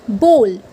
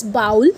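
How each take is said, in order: First: Bowl rhyming with hole; the correct bowl. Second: Bowl rhyming with owl; the mistaken bowl; wrong way. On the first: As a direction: say bowl with a long oh. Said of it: "it's bowl". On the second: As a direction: say bowl as bowl like howl. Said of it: "people usually say it as bowl". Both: Shown as a demonstration.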